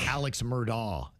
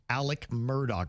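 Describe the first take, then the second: First: The name is said as 'Alex Murdaw'. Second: The name is said as 'Alec Murdoch'. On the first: The speaker calls it wrong. "is how you might say it" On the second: The speaker calls it right. "he pronounces it Alec Murdoch"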